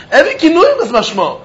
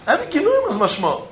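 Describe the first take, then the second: First: Said in the usual way. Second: Softer echo of the point; murmured restatement, softer; quiet repeat. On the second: Shown as a demonstration. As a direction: drop the volume and let it land.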